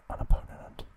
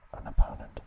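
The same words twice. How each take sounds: The two takes are said the same way.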